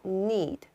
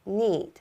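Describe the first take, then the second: No difference in how they are said.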